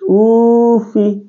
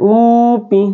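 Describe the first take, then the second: First: The consonant is pronounced as an f sound. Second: The consonant is pronounced as a p sound. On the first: The speaker calls it right. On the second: The speaker calls it wrong.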